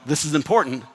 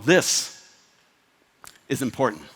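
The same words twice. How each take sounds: First: The phrase runs straight through without pauses. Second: The phrase is set off with pauses around it. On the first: The speaker calls it wrong. "instead of going" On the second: The speaker calls it right. "spaces around your big ideas"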